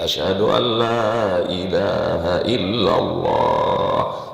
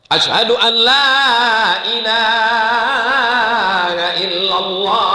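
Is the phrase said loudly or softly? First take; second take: softly; loudly. First: It is said softly and gently. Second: It is said loudly and forcefully. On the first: It suits calling into a baby's ear. The speaker calls it right. "Kalau untuk bayi itu agak lembut sedikit" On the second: It would startle a newborn baby. The speaker calls it wrong. "Kalau begitu kuatnya terkejutlah dia"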